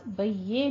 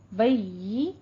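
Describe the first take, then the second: First: "बय्ये" ending in an open e instead of ee; wrong e vowel. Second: "बय्यी" ending in a clear thin ee; thin ee sound. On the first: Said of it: "बय्ये नहीं कहना है". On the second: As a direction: correct "बय्यी", doubled y and held ee. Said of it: "मुंह को पस्त करके बारीक आवाज". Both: Shown as a demonstration.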